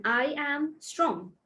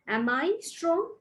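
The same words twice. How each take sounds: First: "I am strong" with a slow falling end; statement tune. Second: "Am I strong?" with a rising end; question tune. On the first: Teacher to students, slow falling statement intonation. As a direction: let "strong" drop down to close it. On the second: Teacher to students, slow rising question intonation. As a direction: lift "strong" up to ask. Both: Shown as a demonstration. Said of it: "make sure you listen to my stress and my intonation".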